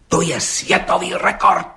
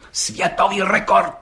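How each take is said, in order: First: High, slow, emphatic proclamation; agitated exclamation. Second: High, slow, ceremonial proclamation; solemn repetition. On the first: Policeman announcing a world record to the judge, excitedly. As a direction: blurt it out excitedly, stretching the words high. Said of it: "vyhrkl rozčileně". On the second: Policeman repeating the record to the judge, solemnly. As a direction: proclaim it grandly, drawing out each word. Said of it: "opakoval četník Hejda slavnostně". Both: A narrator's reading.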